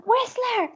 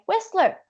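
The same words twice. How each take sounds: First: Whistler called again much higher. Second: Said in the usual way. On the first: Retold or imitated. A paddler repeating Whistler to the boat guy, higher.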